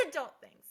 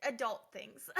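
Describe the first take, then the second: First: Laughed out, louder; laughing. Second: Said in the usual way. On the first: Real, not acted. Telling viewers about grown-up chores, laughing. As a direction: laugh through the words.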